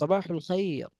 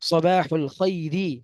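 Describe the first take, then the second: First: The last word ends on a bare consonant. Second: The last word ends with a final vowel.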